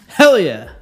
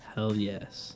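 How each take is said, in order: First: It is said loudly, with high energy. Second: It is said flatly, with low energy. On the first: The speaker calls it right. "there we go" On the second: The speaker calls it wrong. "That was not enthusiastic whatsoever"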